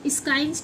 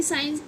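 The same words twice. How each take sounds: First: स्काइंस with a k after the s; mispronounced science. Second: साइंस without any k; correct silent c. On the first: Teacher asking why not this reading, k sounded. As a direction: pronounce the silent c as k in स्काइंस. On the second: Teacher asking about the rule, c silent. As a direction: glide from s to vowel in साइंस. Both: Shown as a demonstration. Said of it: "स्काइंस क्यों नहीं पढ़ा जाता".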